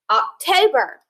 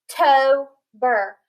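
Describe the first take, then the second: First: Said in the usual way. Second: October stretched slowly, Oc-to-ber; slow syllable split. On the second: Shown as a demonstration. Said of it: "split it in between the O and the B".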